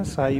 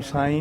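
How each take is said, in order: First: ਸਾਈ said the right way, meaning master; ਸਾਈ spoken correctly as taught; ਸਾਈ in its correct recited form; correct pronunciation. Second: ਸਾਈ said the wrong way; ਸਾਈ pronounced as the mistaken reading to avoid; ਸਾਈ in its incorrect form; wrong pronunciation. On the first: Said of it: "ਸਾਈ ਬੋਲਣਾ". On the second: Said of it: "ਸਾਈ ਨਹੀਂ ਕਹਿਣਾ". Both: Shown as a demonstration.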